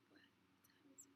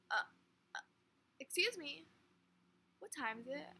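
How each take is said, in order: First: A barely voiced whisper, slow, imitating the man; whispered to himself. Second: A louder, higher retold question, imitating the man; asking her out loud. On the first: Man at the bus stop whispering the time question to himself. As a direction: murmur it under your breath like talking to yourself. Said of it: "literally that quiet". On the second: Man turns to the girl and asks her the time out loud. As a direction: turn and ask her straight out, no longer muttering. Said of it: "looks me straight in the face and just goes".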